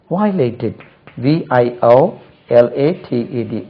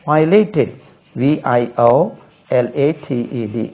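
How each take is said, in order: Both takes have the same delivery.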